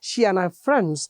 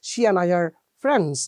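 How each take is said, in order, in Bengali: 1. 'are' শব্দের r ধ্বনিটি বাদ যায়। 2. 'are' শব্দের r ধ্বনিটি উচ্চারিত হয়। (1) "আর ব্রিটিশ আর বাদ" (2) "আমেরিকান ... ওরা রট উচ্চারণ করছে"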